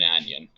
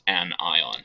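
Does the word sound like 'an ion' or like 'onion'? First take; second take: onion; an ion. First: It is said as one word, like 'onion'. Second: It is said as 'an' plus 'ion'. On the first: The speaker calls it wrong. "not an anion" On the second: The speaker calls it right. "this is pronounced an ion"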